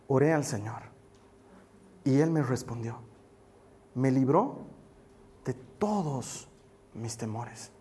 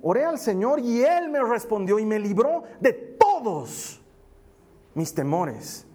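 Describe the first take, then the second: First: Low, hushed verse reading with pauses; quiet scripture reading. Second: Emphatic scripture reading. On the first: Pastor reading David's psalm to the congregation, low and measured. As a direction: read the psalm softly, phrase by phrase. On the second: Pastor rereading the psalm to the congregation, emphatic and slow. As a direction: proclaim it, punching TODOS, then drop on "mis temores". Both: Real, not acted. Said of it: "Te lo quiero leer otra vez".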